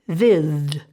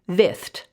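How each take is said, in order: First: The th is voiced and the ending sounds like d. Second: The th is unvoiced and the ending sounds like t. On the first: "with that th making the voiced sound. If that were the case, ed would say d" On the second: "th sound is unvoiced, so the word would be vithed, and I would put it in the ed says t column"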